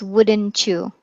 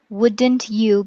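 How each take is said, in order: First: The t and y merge into one sound. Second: The t and y are said separately.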